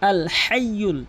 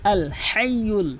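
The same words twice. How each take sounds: The two takes are said the same way.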